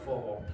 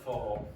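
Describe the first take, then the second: The two takes are said the same way.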